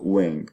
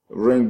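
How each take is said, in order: First: The word starts with a w sound. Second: The word starts with an r sound. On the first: "Take the r out and put a w instead of it" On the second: "You take ring as a as a liquid"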